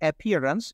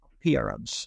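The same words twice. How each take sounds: First: The first vowel sounds like 'a' in cat. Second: The first vowel is a short 'uh' sound. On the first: The speaker calls it wrong. "it's not appearance" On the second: The speaker calls it right. "it should be appearance"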